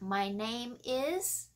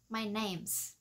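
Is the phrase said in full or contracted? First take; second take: full; contracted. First: Name and is are said separately. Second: Is shrinks to a voiceless s on name. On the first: "thay vì mình sẽ nói là my name is" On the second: "nó chỉ là S, không rung"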